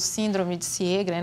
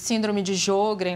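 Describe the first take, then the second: First: Sjögren is said closer to its original pronunciation. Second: Sjögren is said with a Brazilian Portuguese pronunciation. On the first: The speaker calls it right. "Que é a maneira mais correta de pronunciar" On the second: The speaker calls it wrong. "que é chamada de síndrome de Sjögren no Brasil"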